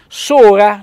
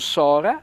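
First: The O vowel is pronounced closed. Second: The O vowel is pronounced open. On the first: The speaker calls it right. "accento fonico chiuso come Corè" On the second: The speaker calls it wrong. "non Sora"

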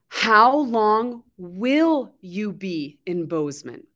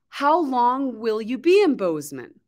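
First: It is spoken at a slower, careful pace. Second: It is spoken fast with the words run together. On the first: "Let's practice the pronunciation" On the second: "will you be is commonly together"

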